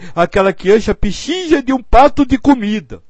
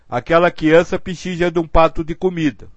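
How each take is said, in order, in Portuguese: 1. Foi dito em um tom sofrido e emotivo. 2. Foi dito em um tom neutro, sem emoção. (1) "Outra coisa é você dizer: meu Deus, ai" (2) "Uma coisa é você dizer assim"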